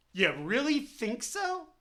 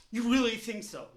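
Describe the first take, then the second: First: Slow sarcastic question, weight on so. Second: Sarcastic, "really" leaned on; stress on really. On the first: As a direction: drawl out "so" sarcastically. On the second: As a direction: press on "really" in disbelief. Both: Real, not acted.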